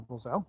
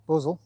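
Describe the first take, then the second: First: "bozel" stressed on the last syllable; alternate pronunciation. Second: "bozel" stressed on the first syllable; alternate pronunciation. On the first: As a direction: say this "bozel" as bo-ZAL. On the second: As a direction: say "bozel" as BOH-zul. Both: Shown as a demonstration. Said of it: "depending on which way you want to pronounce".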